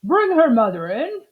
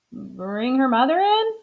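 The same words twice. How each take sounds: First: Firm doctor's instruction; doctor's order. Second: Amelia repeating the order as a puzzled question; puzzled echo. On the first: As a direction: state it as a plain order. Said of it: "said the doctor". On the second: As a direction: echo the doctor, baffled. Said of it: "said Amelia Bedelia". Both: Acted.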